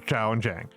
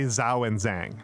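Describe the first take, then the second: First: The names begin with a Mandarin zh sound. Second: The names begin with an English j sound. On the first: The speaker calls it right. "They don't say" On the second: The speaker calls it wrong. "They say they say"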